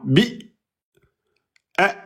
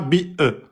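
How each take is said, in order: First: The closure is held shut with no echo vowel. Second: The closure is released with a short echo vowel. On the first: The speaker calls it right. "Non, bi e" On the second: The speaker calls it wrong. "C'est pas bi e. Ça c'est qalqala"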